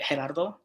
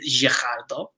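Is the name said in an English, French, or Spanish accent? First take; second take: Spanish; French. First: It is said with a Spanish accent. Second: It is said with a French accent.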